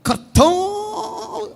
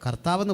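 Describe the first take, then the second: First: The 'tha' sound is hit hard with force. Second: The 'tha' sound is said plainly and lightly. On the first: It sounds impressive and spiritual to listeners. The speaker calls it right. "ആ ഇത്തയൊക്കെ പറയുന്നിടത്ത് ഒരു punch" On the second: It sounds ordinary and unimpressive. The speaker calls it wrong. "കർത്താവെന്ന് പറയില്ല"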